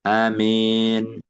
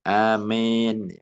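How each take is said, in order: No difference in how they are said.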